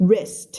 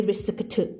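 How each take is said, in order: First: WRIST as one short syllable with crisp ending; clear one-syllable wrist. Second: วิสึกถึก with every consonant made a syllable; mock Thai misreading of wrist as วิสึกถึก; "wrist" broken into wi-suek-thuek, วิสึกถึก; over-split wrong pronunciation. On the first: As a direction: say "wrist" without splitting up the consonants. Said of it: "ไม่ วิสึกถึก". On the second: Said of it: "มันอ่านไม่ได้เลย วิสึกถึก". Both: Shown as a demonstration.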